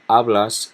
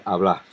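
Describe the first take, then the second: First: "hablas" stressed on the first syllable. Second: "hablas" stressed on the final "blas"; last-syllable stress. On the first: Teacher giving the tú form for comparison, first-syllable stress. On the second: Teacher giving the vos form, last-syllable stress. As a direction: push the accent onto the last syllable of "hablas". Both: Shown as a demonstration. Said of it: "add an S and an accent".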